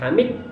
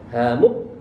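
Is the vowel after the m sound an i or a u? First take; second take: i; u. First: The vowel after the m is i. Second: The vowel after the m is u. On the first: "dengan dibaca kasroh huruf mimnya" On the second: "dibaca dhammahnya mimnya"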